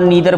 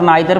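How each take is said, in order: First: The first vowel sounds like 'ee'. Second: The first vowel sounds like 'eye'. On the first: This is how many people say it. "और नीदर बोलते हैं" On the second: This is how the speaker chooses to say it. "लेकिन मैं आइदर और नाइदर बोलता हूँ"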